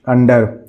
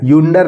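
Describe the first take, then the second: First: The word begins with an 'uh' sound. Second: The word begins with a 'yoo' sound. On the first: The speaker calls it right. "इसको पढ़ेंगे अंडर" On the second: The speaker calls it wrong. "यूंडर नहीं पढ़ेंगे"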